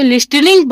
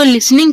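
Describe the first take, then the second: First: "लिस्टनिंग" with the T sounded; mispronunciation. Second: "लिसनिंग" with a silent T; correct pronunciation. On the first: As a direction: say "लिस्टनिंग", pronouncing a hard T after the S. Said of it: "जो कि बिल्कुल भी गलत है". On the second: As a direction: say "लिसनिंग", S running straight into N. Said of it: "आपको लिसनिंग पढ़ना है". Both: Shown as a demonstration.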